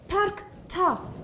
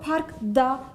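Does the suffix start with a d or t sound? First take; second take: t; d. First: The suffix starts with a voiceless t sound. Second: The suffix starts with a voiced d sound. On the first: The speaker calls it right. "Parkta diyorum" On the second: The speaker calls it wrong. "parkta demiyorum"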